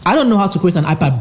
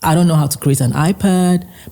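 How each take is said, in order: First: It is said boldly, with confident bravado. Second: It is said softly, in a modest tone. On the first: The speaker projects certainty despite lacking the skill. "He has more bravado" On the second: The speaker honestly admits not knowing. "look at my tone"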